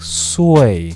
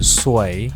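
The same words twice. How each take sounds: First: The word is said on a falling tone. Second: The word is said on a level tone. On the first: "the other one with a dropping tone" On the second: "one with a normal tone"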